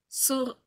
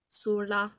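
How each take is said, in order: First: The r is a French throaty r. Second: The r is a rolled, tapped r. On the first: "je le lis en version française" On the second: "Le R, il le roule"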